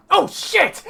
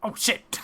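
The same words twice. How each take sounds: First: Loud, high cry of alarm; panicked gnome yell. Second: Startled oath, held back; first jolt of alarm, not yet yelled; startled gnome. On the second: Gnome first sees the looming echo. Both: Acted.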